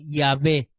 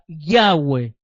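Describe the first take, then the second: First: The middle consonant is a v sound. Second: The middle consonant is a w sound. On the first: The speaker calls it wrong. "no se pronuncia tampoco como Yahvé" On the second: The speaker calls it right. "se acentúa Yahweh"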